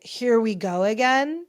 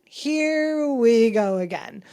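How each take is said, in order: First: Mock weary irritation; irritated, imitated. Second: Slow, stretched-out mock exasperation; irritated, drawn out. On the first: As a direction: retell his exasperation, lightly acted. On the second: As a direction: drag every word out, imitating someone fed up. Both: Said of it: "very irritated, not even really amused".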